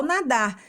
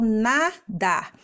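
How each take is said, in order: First: Said in the usual way. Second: "nadar" in two slow beats; two stretched, separate syllables in "nadar". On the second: Shown as a demonstration. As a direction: split "nadar" as na... dar. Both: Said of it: "a gente abre a boca duas vezes".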